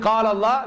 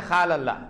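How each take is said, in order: First: The first word begins with a deep 'q' sound. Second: The first word begins with a raspy 'kh' sound. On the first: The speaker calls it right. "instead of saying Qal Allah" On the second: The speaker calls it wrong. "we say Khal Allah"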